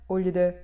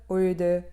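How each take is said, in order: The two takes are said the same way.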